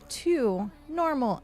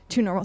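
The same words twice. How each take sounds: First: The phrase is said slowly and deliberately. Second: The phrase is said quickly in a rapid run. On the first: The caller is going easy on new players. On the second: The caller is hitting hard with many attacks.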